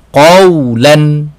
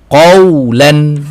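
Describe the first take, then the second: No difference in how they are said.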